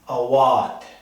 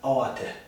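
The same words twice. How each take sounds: First: The stress is on the middle syllable. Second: The stress is not on the middle syllable. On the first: The speaker calls it right. "the emphasis is given to the middle syllable, wa" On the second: The speaker calls it wrong. "it's not awate"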